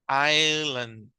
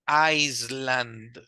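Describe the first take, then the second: First: The s in the middle is silent. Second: The s in the middle is pronounced. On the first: The speaker calls it right. "la S de esta palabra no se pronuncia" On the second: The speaker calls it wrong. "No estoy diciendo Island"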